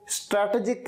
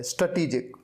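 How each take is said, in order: First: स्ट्रेटेजिक said as "STRAT-uh-jik"; children's mispronunciation. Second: स्ट्रेटेजिक said as "struh-TEE-jik"; corrected pronunciation. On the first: Teacher quoting children's mistake, स्ट्रेटेजिक wrongly as "STRAT-e-jik". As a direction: say स्ट्रेटेजिक with an open first "stra" and short middle. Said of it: "ये गलत है". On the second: Teacher correcting children's mistake, स्ट्रेटेजिक as "struh-TEE-jik". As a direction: reduce the first syllable of स्ट्रेटेजिक, lengthen "tee". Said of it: "इसकी pronunciation होती है". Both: Shown as a demonstration.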